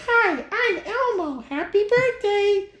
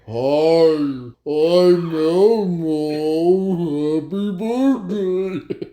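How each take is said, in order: First: It is said at a normal, cheerful pace. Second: It is said slowly and dragging, like dying batteries.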